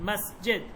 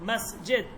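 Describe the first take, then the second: Both takes have the same delivery.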